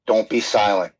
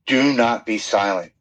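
First: Said in the usual way. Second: "do not" said as two full, separately stressed words; emphatic DO NOT. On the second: Real, not acted. Guest to listeners at their lowest, stressing DO NOT. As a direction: spell out "do not" firmly before "be silent".

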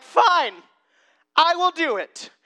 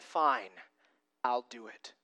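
First: Loud, high, exasperated giving in; sarcastic compliance. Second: Low, softened acceptance; resigned obedience. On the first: Peter giving in to Jesus about the nets, loudly sarcastic. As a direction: agree with exaggerated grudging sarcasm. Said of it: "hear the sarcasm in Peter's voice". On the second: Peter choosing to obey Jesus after all, quietly resigned. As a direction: give in quietly, dropping pitch and volume. Peter actually obeys, contrasted with sarcasm. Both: Acted.

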